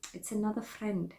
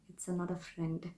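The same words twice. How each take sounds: First: It's another friend in a goofy put-on accent; silly put-on accent. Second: Said in the usual way. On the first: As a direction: play it as a throwaway joke accent. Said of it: "I don't know why I did that accent". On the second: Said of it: "Please ignore that accent".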